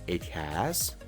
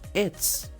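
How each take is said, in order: First: Both words are said fully and separately. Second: The words are joined into one short syllable. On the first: The speaker calls it wrong. "En vez de decir it has" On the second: The speaker calls it right. "mejor di its"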